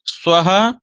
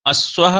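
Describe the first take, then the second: First: स्वः as 'svaha', starting straight on 's' and rising; pure initial s. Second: अस्वः with an extra 'a' before 'sva'; wrong added vowel. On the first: Teacher correcting the mistaken form, pure initial s. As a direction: go right into 'sv' in स्वः, no vowel before it. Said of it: "सीधे सीधे सकार का उच्चारण". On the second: Teacher warning how not to say it, wrong added vowel. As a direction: open अस्वः on a short 'a'. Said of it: "ऐसा नहीं कहेंगे". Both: Shown as a demonstration.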